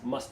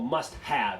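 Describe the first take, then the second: First: The word have is reduced to a weak vowel. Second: The word have is said in full. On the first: The speaker calls it right. "the have is usually dropped" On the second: The speaker calls it wrong. "不会说 must have"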